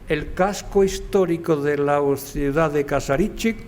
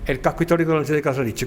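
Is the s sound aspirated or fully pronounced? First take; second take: fully pronounced; aspirated. First: The s sounds are fully pronounced. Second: The s sounds are aspirated like an h.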